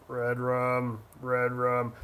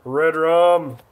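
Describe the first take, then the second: First: Low, quiet, creepy horror-movie voice; low, spooky, soft creepy intonation; creepy Redrum voice. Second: Said in the usual way. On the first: Shown as a demonstration. Repeats restaurant name, then spooky.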